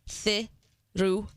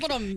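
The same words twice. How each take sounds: First: It is said slowly. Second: It is said at normal speed.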